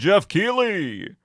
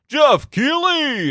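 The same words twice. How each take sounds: First: It is said in his plain voice. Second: It is said in a Smash Bros announcer voice.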